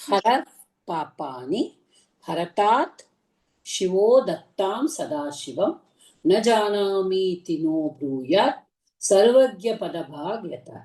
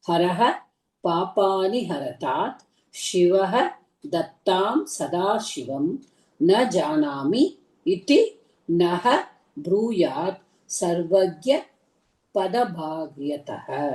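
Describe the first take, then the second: First: The words are run together with merged sounds. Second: The words are split apart with full endings.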